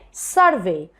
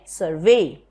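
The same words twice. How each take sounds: First: The stress is on the first syllable. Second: The stress is on the second syllable. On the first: The word is used as a noun. "If it is a noun, you say survey" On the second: The word is used as a verb. "when a word is a verb, you put stress on the second syllable"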